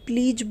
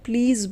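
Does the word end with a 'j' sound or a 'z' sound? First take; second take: j sound; z sound. First: The final consonant is a 'j' sound. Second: The final consonant is a 'z' sound. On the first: The speaker calls it wrong. "बहुत से लोग इसे प्लीज बोलते हैं, जो कि गलत है।" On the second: The speaker calls it right. "ज पे बिंदी है तो ज बन जाएगा"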